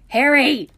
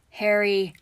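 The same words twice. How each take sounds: First: Loud, high scolding yell. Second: Mild warning, louder on the name; a touch of caution in calling him. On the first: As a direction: yell the name to cut him off. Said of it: "Hermione yelled". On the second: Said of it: "Hermione warned". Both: A narrator's reading.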